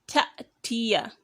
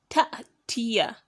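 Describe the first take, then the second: The two takes are said the same way.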